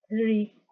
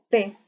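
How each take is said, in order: First: It starts with a soft hissing th sound. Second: It starts with a hard t sound. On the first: The speaker calls it right. "Es un poco sacar la lengua y hacer un siseo suave" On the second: The speaker calls it wrong. "no es tan dura como la T de nosotros, no es como decir T"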